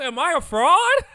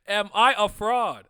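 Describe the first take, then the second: First: Mock panicked yell. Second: Louder, slow, through laughter; laughing. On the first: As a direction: shout it, much higher and louder. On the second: Retold or imitated. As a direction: repeat it, cracking up. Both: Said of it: "and I'm like".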